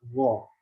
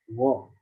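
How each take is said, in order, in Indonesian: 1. Bunyi konsonan pertama seperti gh yang dari tenggorokan. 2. Bunyi konsonan pertama seperti gh yang dari tenggorokan.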